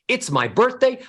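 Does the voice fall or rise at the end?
rise. The melody ascends, rising at the end. The speaker sounds happy. The speaker calls it right. "ascending melodies, going from low to high, would make you sound happy"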